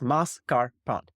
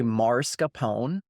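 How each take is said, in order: First: The first syllable has no R sound. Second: An R sound is added in the first syllable. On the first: The speaker calls it right. "It's very easy. It's three syllables" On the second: The speaker calls it wrong. "Americans, for some reason, have this tendency to say"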